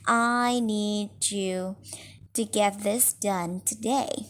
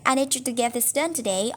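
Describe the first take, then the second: First: The sentence is spoken very slowly. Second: The sentence is spoken very fast. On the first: The speaker seems condescending, talking down to the listener. "if you slow down that rate of speech" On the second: The listener feels rushed and slightly agitated. "if we have a super fast talker"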